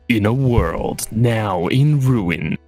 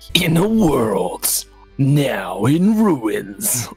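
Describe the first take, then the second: First: It is read in a less dramatic way. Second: It is read in a more dramatic way.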